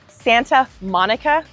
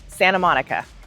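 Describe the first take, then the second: First: Every sound in Santa is said clearly. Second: The sounds in Santa are softened and blurred.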